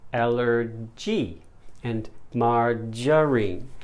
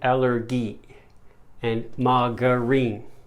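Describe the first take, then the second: First: The g is said as a j sound. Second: The g is said as a hard g. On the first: The speaker calls it right. "It's allergy and margarine" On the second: The speaker calls it wrong. "But that's wrong. ... these words use the g, g sound instead of using the j sound"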